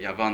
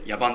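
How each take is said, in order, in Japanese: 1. 真ん中の子音は v の音です。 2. 真ん中の子音は b の音です。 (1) "V でヤバンって言うんですけど" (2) "ヤバンじゃないですよ"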